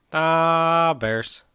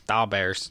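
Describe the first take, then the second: First: Higher, long-held vowel in mock Chicago accent; exaggerated Chicago accent. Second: Put-on offhand, low-key Chicago accent; half-hearted attempt at a Chicago accent; terrible Chicago accent. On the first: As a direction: stretch DAW way out like a hammed-up Chicago fan. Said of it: "I could do way better". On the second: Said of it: "That was a terrible Chicago accent".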